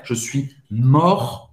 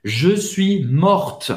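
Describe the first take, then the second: First: "mort" ending on the French R, no T; silent T. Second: "morte" closed with an audible T; pronounced final T. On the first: Teacher showing the form for a man, "mort" with silent T. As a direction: leave the T of "mort" unpronounced. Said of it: "Você não vai pronunciar o T". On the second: Teacher showing the form for a woman, "morte" with final T sounded. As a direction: slowly, sound the T at the end of "morte". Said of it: "você vai falar o T". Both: Shown as a demonstration.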